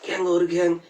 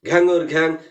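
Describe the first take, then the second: First: It is said quietly and softly. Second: It is said at medium loudness. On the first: "প্রথমে বলুন আস্তে বলতে" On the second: "বলুন একটু মধ্যম জোরে"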